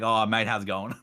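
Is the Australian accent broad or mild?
broad. It has a broad, full-on Australian accent.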